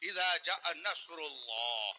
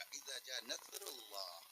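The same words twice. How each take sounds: First: Slow اذا جاء نصر اللہ with a heavy emphatic ص in نصر; correct sawad reading. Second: Soft, slow نصر with a light s; se pronunciation. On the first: Preacher gives the correct Quranic reading, slow. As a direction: read نصر slowly with a full ص. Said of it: "قرآن میں سواد سے ہے". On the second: Preacher demonstrates the سے reading quietly. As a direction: read نصر softly and slowly, as نثر. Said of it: "اگر آپ نے اس کو سے سے پڑھ دیا". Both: Shown as a demonstration.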